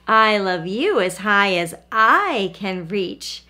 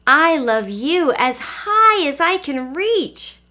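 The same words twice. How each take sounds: First: Slow, lower big-hare voice. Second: High, slow, stretched little-hare voice. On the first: Big Nut Brown Hare answering the little one, low and slow. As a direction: answer steadily as the bigger hare. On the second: Little Nut Brown Hare to Big one, high eager voice. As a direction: reach upward with the voice, eager and small. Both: A narrator's reading.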